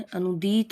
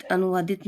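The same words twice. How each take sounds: First: अनुदीत with no vaa, dee lengthened; slow अनुदीत as anu-deet; correct form अनुदीत. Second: अनुवादित with an extra vaa; wrong form अनुवादित. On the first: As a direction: hold the last vowel of अनुदीत. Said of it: "होता है". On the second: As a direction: say अनुवादित as anu-vaa-dit. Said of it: "नहीं होता है". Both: Shown as a demonstration.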